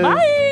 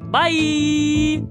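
First: It is said on a higher note. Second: It is said on a lower note.

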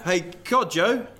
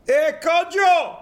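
First: The name is said in a calm, normal voice. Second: The name is said loudly, almost shouted. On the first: "This is your dad" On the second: "you have to scream it"

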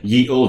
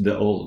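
First: The first word starts with a 'y' sound. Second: The first word starts with a 'th' sound. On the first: The speaker calls it wrong. "Some people say ye olde. They're just idiots" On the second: The speaker calls it right. "It's the old"

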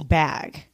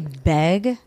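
First: The vowel is the open 'a' of 'cat'. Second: The vowel is the 'e' of 'bed'. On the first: The speaker calls it right. "It's bag" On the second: The speaker calls it wrong. "when you say beg, it's wrong"

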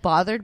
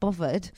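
First: The word is said in an American accent. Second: The word is said in a British accent. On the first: "when I try to say like this" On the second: "it comes out bothered... I'm speaking in a British accent"

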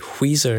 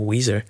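First: The word starts with a breathy hw sound. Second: The word starts with a plain w sound. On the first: The speaker calls it wrong. "you're putting an H in there that's really offending me" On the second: The speaker calls it right. "instead of"

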